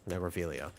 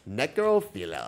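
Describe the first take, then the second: First: It is said flat and expressionless. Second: It is said with a punchy, playful zing. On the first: "Now say it with a straight face" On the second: "now say it with a zinger"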